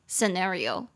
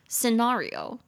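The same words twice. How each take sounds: First: It is said with an American accent. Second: It is said with a British accent. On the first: "美式是scenario scenario" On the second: "英式是scenario scenario"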